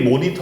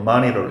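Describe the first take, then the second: First: It is said as a Korean loanword. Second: It is said with English pronunciation. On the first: The speaker calls it wrong. "티비 모니터" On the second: The speaker calls it right. "실제로 발음할 때 monitor 또는 monitor 이렇게 발음해야겠지"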